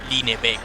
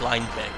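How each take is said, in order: First: The name is said with Spanish vowel sounds. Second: The name is said with English vowel sounds. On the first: "in Spanish it would be pronounced like Linebeck" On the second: "written like English Lineback"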